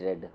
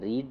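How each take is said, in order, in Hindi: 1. स्वर छोटा है, 'red' जैसा। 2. स्वर लंबा है, 'reed' जैसा। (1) "इनको रेड बोला जाता है" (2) "रीड मैंने पढ़ना"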